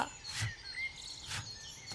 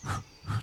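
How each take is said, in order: First: Short f hiss for "フッ"; English F sound. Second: "フッ" as Japanese fu, an H sound; breath-only "フッ" like h, no lip bite; wrong H-like F. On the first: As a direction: blow out "フッ" as a voiceless f. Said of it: "上の歯でちょっと下の唇を押さえながら". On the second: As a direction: puff "フッ" through the lips without teeth. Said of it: "Hの音になります". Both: Shown as a demonstration.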